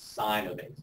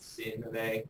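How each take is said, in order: First: The first word has a long 'eye' vowel. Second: The first word has a short 'i' vowel. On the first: The speaker calls it right. "it's sine of A" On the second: The speaker calls it wrong. "It's not sin of A"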